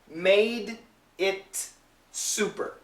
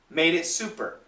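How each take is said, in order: First: Each word is said slowly and fully separated. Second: The words run together quickly with linked sounds. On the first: "perfect pronunciation" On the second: "But when we say it fast"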